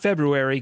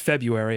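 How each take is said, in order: First: The first R sound is pronounced. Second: The first R sound is dropped. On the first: The speaker calls it wrong. "not February, get that R out of here" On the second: The speaker calls it right. "It's February. Everybody knows it"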